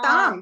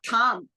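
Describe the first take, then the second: First: The t is said without a puff of breath. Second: The t is said with a puff of breath. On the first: The speaker calls it right. "Tam is a alpa prana" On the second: The speaker calls it wrong. "but not tham. I heard it as tham"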